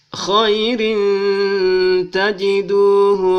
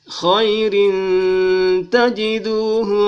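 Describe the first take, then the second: No difference in how they are said.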